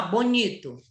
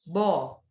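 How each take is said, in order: First: Said in the usual way. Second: "Bonito" split into three syllables with clear pauses; segmented, measured "Bonito". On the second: Shown as a demonstration. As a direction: count out "Bonito" one piece at a time. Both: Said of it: "Três sílabas".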